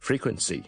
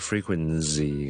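First: The c is said with an s sound. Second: The c is said with a z sound. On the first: The speaker calls it right. "就咁c" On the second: The speaker calls it wrong. "练z 音嘅同学咧就唔好变frequency，咁咧就会好奇怪啦"

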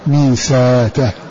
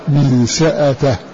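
First: The hamza is replaced by a long vowel. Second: The hamza is pronounced with a following vowel.

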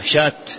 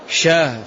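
First: The word ends with a t sound. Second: The word ends with an h sound. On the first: The speaker calls it wrong. "وليس بتاء مربوطة" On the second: The speaker calls it right. "شاه بالهاء"

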